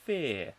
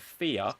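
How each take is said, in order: First: The word is said as one short syllable. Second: The word is drawn out like two syllables. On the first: "but it's actually fear" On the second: "it would sound like two"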